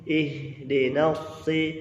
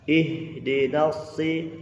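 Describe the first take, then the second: Both takes have the same delivery.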